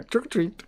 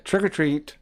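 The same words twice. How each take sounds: First: High, hammed-up Indian accent; bad Indian accent. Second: Said in the usual way. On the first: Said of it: "in that Indian accent". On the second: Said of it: "in a bad Indian".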